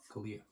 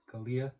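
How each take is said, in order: First: Said in the usual way. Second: Kalia? with a rising, unsure tune; questioning the name. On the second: Shown as a demonstration. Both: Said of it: "That's what it says".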